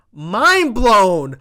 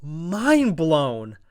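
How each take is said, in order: First: Much louder, higher mind blown; excited shout. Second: Said in the usual way. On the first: Real, not acted. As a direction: yell it in disbelief. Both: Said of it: "And I was".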